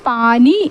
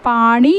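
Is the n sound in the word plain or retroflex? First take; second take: plain; retroflex. First: The n sound is a plain n. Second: The n sound is retroflex, tongue curled back. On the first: The speaker calls it wrong. "പാനി എന്നതല്ല. അത് ഒരു തെറ്റാണ്" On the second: The speaker calls it right. "ണ എന്ന ഉച്ചാരണം വേണം വരാൻ"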